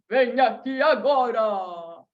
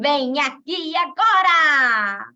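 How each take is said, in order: First: It is said in a Santa Claus voice. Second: It is said in a witch's voice.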